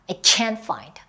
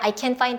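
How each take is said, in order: First: It is said with a strong, bouncy rhythm. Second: It is said flat, without rhythm. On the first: The speaker calls it right. "입으로 리듬 타면서" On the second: The speaker calls it wrong. "그냥 I can't find ... 이게 아니라"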